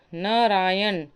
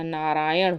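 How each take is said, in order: First: नारायण ending in dental n; plain n at the end of नारायण; wrong form. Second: नारायण ending in retroflex ṇ; correct form. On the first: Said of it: "नहीं होगा, ना की जगह अड़ा". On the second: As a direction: curl the tongue to end नारायण. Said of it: "नारायण होगा". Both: Shown as a demonstration.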